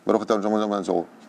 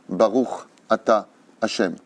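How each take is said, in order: First: The words are slurred together at the lips. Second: Each letter is pronounced separately and clearly. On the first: The speaker calls it wrong. "comment on fait? ... C'est impossible" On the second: The speaker calls it right. "faut séparer les lettres"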